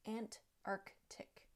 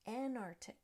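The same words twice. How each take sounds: First: The T and K sounds are both said. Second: The T and K sounds are dropped. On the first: The speaker calls it right. "It really should be said Antarctic" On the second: The speaker calls it wrong. "We're missing a T at the end of the first syllable, and that C is also missing"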